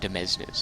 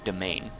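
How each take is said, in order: First: The word sounds like 'demesnes'. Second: The word sounds like 'domain'. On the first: The speaker calls it wrong. "not Demesnes" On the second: The speaker calls it right. "it's domain"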